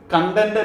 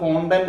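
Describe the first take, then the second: First: The first vowel sounds like 'uh'. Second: The first vowel sounds like 'o'. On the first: The speaker calls it wrong. "ആ word കണ്ടന്റ് അല്ല" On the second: The speaker calls it right. "അത് കോണ്ടന്റ് ആണ്"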